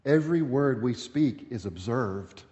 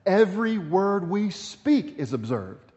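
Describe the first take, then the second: First: Said in the usual way. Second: "Every word we speak is observed." pitched higher and slow, with weight on "Every"; re-emphasized. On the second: Shown as a demonstration. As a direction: lean hard into "Every", slow and deliberate. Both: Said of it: "let me re-, emphasize that".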